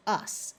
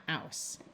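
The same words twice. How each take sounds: First: "us" with a short uh sound; "us" as the OUS ending sounds; suffix said "us". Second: "aus" with an ow sound; "aus", the OUS read as ow; wrong ending "aus". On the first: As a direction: say "us" as in the word us, short. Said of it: "the suffix says us". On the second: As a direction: say "aus" to rhyme with house. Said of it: "not aus". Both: Shown as a demonstration.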